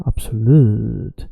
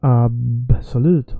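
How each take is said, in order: First: ABSOLUTE with LUTE drawn long; last syllable stretched. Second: ABSOLUTE with a long opening AB; first syllable stretched. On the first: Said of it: "or absolute". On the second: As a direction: draw out the start of "absolute". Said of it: "you can hear people say absolute or absolute". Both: Shown as a demonstration.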